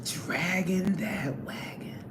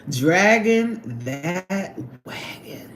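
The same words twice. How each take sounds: First: Slow, soft "Dragging that wagon"; drawn out softly. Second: Slow, heavy stress on Dragging; drawn-out dragging. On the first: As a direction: drag "Dragging" out and let it fade. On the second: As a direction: stretch out "Dragging that wagon" slowly. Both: Shown as a demonstration. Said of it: "you gotta say it just like that".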